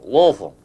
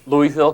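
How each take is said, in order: First: The word is squeezed into a single syllable. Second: The word is said with several full syllables.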